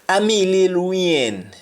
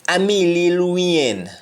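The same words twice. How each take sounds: The two takes are said the same way.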